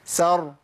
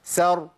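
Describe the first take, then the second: No difference in how they are said.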